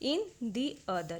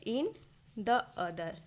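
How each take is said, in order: First: "The" is said with a long "thee" vowel. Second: "The" is said with a short "thuh" vowel. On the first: The speaker calls it right. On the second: The speaker calls it wrong.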